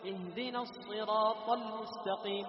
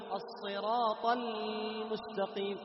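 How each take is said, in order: First: Chanted, ل in المستقيم clipped short; cut-short ل. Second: Chanted, ل in المستقيم dragged too long; overextended ل. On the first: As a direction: wrongly cut the sound on ل in المستقيم. (قطع صوت اللام في المستقيم) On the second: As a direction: wrongly stretch the ل opening المستقيم. (إطالة زائدة للام في المستقيم) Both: Shown as a demonstration. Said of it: "لا هذا ولا هذا".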